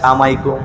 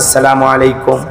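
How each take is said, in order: First: The greeting is squeezed into one clipped word. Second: Every syllable of the greeting is said in full. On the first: The greeting is given carelessly. The speaker calls it wrong. "সালাম সঠিক ভাবে দিতে পারে না" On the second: The greeting is given properly and respectfully. The speaker calls it right. "সালাম দিলেন"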